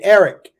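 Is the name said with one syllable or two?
two. The name has two syllables, standard pronunciation.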